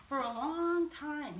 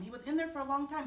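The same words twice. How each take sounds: First: Slow. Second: Quick, rattled-off repeat; fast. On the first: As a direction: draw it out slowly. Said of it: "repeated phrase, slow take". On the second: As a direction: toss it off quickly. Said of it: "repeated phrase, fast take". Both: Shown as a demonstration.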